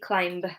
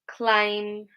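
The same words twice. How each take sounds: First: The word ends with an audible B sound. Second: The word ends with an M sound only. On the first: The speaker calls it wrong. "So we don't say" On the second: The speaker calls it right. "we just pronounce it like an M at the end"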